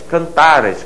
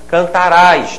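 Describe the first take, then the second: First: The final syllable carries no stress. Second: The final syllable carries the stress. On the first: It is the pluperfect tense. "com essa pronúncia em que o R A é átono" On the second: It is the simple future tense. "O R A vai caracterizar o futuro quando for tônico. ... É uma palavra oxida"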